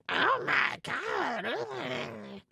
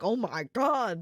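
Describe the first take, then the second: First: It is said in a gremlin-like put-on voice. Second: It is said in a plain shocked voice.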